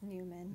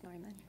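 First: The name is said with an American pronunciation. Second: The name is said with a German pronunciation. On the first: "It's Neuman" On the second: "Unless we're in Germany, and then it's Neuman"

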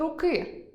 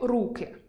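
First: The stress is on the last syllable. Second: The stress is on the first syllable. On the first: It is the genitive form, 'of a hand'. "А от у родовому наголос падає на «и»" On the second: It is the nominative form, 'hands'. "має наголос на «у»"

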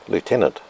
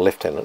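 First: It is pronounced in a non-British way. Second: It is pronounced in the British way.

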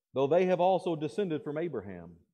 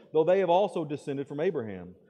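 Both takes have the same delivery.

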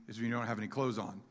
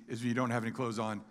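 Both takes have the same delivery.

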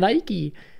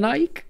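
First: The word is said as two syllables. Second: The word is said as one short syllable. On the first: The speaker calls it right. "Nike je prostě moc dlouhý" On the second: The speaker calls it wrong. "já to celý život taky říkám jako Nike, i přesto, že to je špatně"

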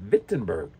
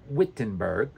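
First: The name begins with a V sound. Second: The name begins with an English W sound. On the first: The speaker calls it right. "W-V, Wittenberg" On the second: The speaker calls it wrong. "Not Wittenberg, remember?"

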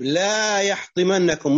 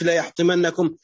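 First: The first word has a long vowel. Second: The first word has a short vowel. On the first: It warns them to take care not to be crushed. The speaker calls it right. "طيب لا يحطمنكم" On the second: It asserts that he will surely crush them. The speaker calls it wrong. "مش لا يحطمنكم"

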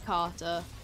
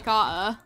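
First: The middle t sound is clearly pronounced. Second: The middle t sound is dropped. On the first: The speaker calls it wrong. "I know I just did then" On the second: The speaker calls it right. "That's why I normally say Carter"

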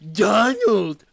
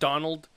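First: The name is said in a mocking voice. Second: The name is said in a plain voice.

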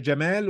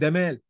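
First: The name starts with a j sound. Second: The name starts with a d sound. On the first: "الجيم تبقى معطشه" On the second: "الجيم دال"

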